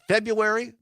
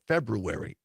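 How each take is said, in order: First: The first R is dropped from the word. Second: The first R is clearly pronounced in the word. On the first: "the way everybody says it" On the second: "with the R in it"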